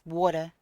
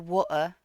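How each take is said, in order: First: It is said in a non-British accent. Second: It is said in a British accent. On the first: "for me it's water" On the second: "a British accent like say water"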